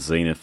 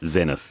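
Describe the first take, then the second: First: It is said the American way. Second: It is said the Australian, British-style way. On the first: The speaker calls it wrong. "That's a bit of an Americanism" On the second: The speaker calls it right. "that's how us Australians tend to say the word Zenith"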